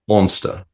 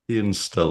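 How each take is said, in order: First: It is said in a put-on French accent. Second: It is said in a plain, unaccented way.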